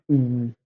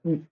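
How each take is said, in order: First: Long "mm", held out; long vowel. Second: Short "mm", kept brief; short vowel. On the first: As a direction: stretch "mm" into a sustained sound. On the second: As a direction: say "mm" as a quick sound. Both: Shown as a demonstration. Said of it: "that is the length of the pronunciation".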